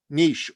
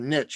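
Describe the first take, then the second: First: The word is said the non-American way. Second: The word is said the American way.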